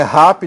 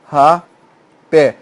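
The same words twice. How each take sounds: First: Quick RA-pe for rap; stress on first syllable. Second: Rapé split slowly, stressed PÉ; ra, pause, PÉ, final syllable strong; stress on last syllable. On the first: Teacher rejecting a wrong form, rap stressed on RA. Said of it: "Isso não é, não é rap". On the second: Teacher showing the tonic syllable, rapé split with stressed PÉ. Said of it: "Tá aqui a sílaba tônica". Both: Shown as a demonstration.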